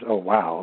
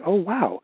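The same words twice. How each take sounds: First: It is said in a flat, unhappy tone. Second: It is said in an excited, exclamatory tone.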